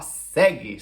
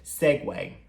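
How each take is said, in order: First: The word is said like the Portuguese word segue. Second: The word is said with its English pronunciation. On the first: The speaker calls it wrong. "a gente olhando quer falar segue" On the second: The speaker calls it right. "a gente pronuncia essa palavra como sendo segue"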